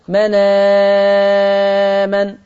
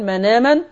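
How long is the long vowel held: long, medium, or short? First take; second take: long; short. First: The long vowel is held for six counts. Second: The long vowel is held for two counts. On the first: "والإشباع" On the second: "القصر"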